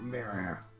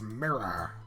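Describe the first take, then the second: First: The R sounds are soft and not strongly pronounced. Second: The R sounds are hard and strongly pronounced. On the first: The speaker calls it wrong. "not mirror. Pirates aren't American" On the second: The speaker calls it right. "you're gonna have to go hard on those R's. It's mirror"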